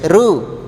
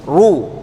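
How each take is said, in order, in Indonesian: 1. Huruf r dibaca tipis. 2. Huruf r dibaca tebal. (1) "Kalau tipis" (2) "Cara menebalkan huruf ra adalah dengan membaca seperti ini"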